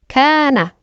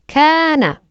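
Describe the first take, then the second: The two takes are said the same way.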